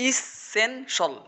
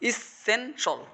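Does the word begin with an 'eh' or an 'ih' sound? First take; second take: ih; ih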